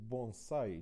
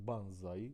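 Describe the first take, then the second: First: The first syllable sounds like 'bon'. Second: The first syllable sounds like 'ban'. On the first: The speaker calls it right. "So bonsai" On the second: The speaker calls it wrong. "not uh, banzai, like uh, Daniel said"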